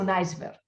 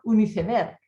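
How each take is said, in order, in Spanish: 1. «Iceberg» se pronuncia con sonidos ingleses. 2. «Iceberg» se pronuncia con sonidos españoles. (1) "he dicho un iceberg" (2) "Yo tendría que haber dicho un iceberg"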